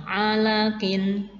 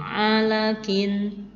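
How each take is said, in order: Both takes have the same delivery.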